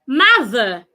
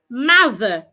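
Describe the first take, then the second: The two takes are said the same way.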